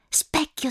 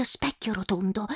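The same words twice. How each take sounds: First: Said in the usual way. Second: Specchio rotondo whispered softly. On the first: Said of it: "whispered repeat". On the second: Acted. Girl whispers to the magic mirror, hushed whisper. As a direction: breathe specchio like a secret spell.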